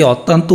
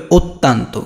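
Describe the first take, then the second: First: অত্যন্ত starting with open "aw", "ottanto" unrounded; wrong open vowel. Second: অত্যন্ত as "ot-tan-to" with rounded first o; correct o-sound. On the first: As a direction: begin অত্যন্ত on অ, not ও. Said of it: "এটা কি অত্যন্ত উচ্চারণ?". (ভুল করে অ দিয়ে "অত্তান্ত") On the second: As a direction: begin অত্যন্ত on ও. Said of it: "এটা উচ্চারণ করতে হবে এভাবে". (ও দিয়ে "ওত্তান্তো") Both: Shown as a demonstration.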